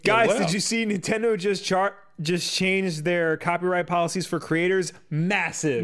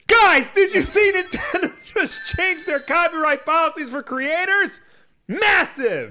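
First: It is read at a normal speaking volume. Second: It is read loudly, as a shout. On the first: The speaker calls it wrong. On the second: The speaker calls it right.

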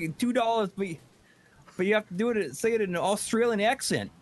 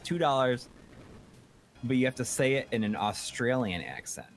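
First: It is said in an attempted Australian accent. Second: It is said in the speaker's normal accent. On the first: The speaker calls it right. "Crikey, ... How's that?" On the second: The speaker calls it wrong. "you screwed up"

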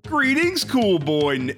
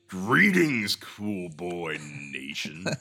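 First: The voice is light and soft. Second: The voice is put-on deep and masculine.

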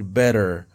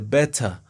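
First: It is said in an American accent. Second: It is said in a British accent.

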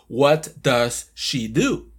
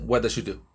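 First: Each word is pronounced clearly and separately. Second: The words run together with linked, reduced sounds. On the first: This is how learners expect to hear it. "nosotros estamos esperando una pronunciación" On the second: This is how native speakers actually say it. "cuando nos hablan, dicen"

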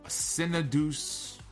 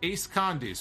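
First: The name is run together as one word. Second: The name is split into two separate words. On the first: The speaker calls it wrong. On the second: The speaker calls it right.

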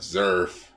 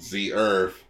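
First: The name is said as one blended syllable. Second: The name is said as two separate syllables. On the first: The speaker calls it wrong. "we've been pronouncing it wrong" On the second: The speaker calls it right. "It's called Z Earth"

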